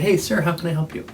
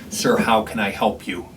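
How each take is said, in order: First: It is said in a warm, friendly tone. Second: It is said in a cold, hostile tone.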